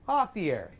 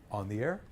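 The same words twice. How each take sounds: First: Comic pinched everyday voice; off-air duck voice. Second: Much lower, softer DJ sound; deep radio voice; on-air voice. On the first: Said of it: "Off the air sounds like a duck". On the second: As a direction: drop low with an open throat. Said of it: "unless they're on the air". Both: Shown as a demonstration.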